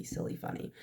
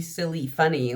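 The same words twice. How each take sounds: First: Whispered, much softer silly, funny; whispered aside. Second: Said in the usual way. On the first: Real, not acted. Admitting to viewers she is always goofy, whispered. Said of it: "I'm always goofy". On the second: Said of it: "I mean".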